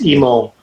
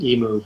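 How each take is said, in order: First: The name ends with an 'oh' sound. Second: The name ends with an 'oo' sound. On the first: The speaker calls it right. "but it's emo" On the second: The speaker calls it wrong. "everybody is my whole career has always said emu"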